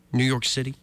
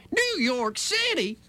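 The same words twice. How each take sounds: First: Said in the usual way. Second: High, drawn-out, scandalized repeat; mock outrage. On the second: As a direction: stretch it out way up high in mock disbelief. Mock-outraged repeat of the city name.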